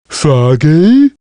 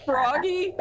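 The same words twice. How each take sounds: First: It is said in a Big the Cat voice. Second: It is said in his own normal voice.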